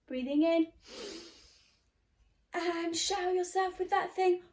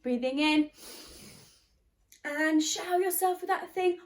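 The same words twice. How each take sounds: The two takes are said the same way.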